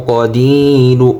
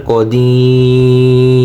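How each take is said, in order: First: "কদিরু" finishing on a clear final u; unpaused ending. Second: "কদির" with a very long ee, closed on r; pausal elongation. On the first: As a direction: sound the last vowel of "কদিরু". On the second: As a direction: slowly stretch "দি" in "কদির" and drop the final u. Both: Shown as a demonstration. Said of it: "ওকফ করলে".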